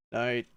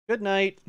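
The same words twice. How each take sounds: First: Said in the usual way. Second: Raised, sweet good night. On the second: Acted. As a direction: say it as the girl, higher. Slavia's line, answered plainly next.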